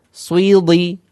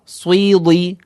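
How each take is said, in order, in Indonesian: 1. Bunyi w mengikuti konsonan pertama. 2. Bunyi w mengikuti konsonan pertama.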